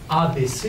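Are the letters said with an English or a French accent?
French. The letters are said with French vowels. The speaker calls it right. "en français"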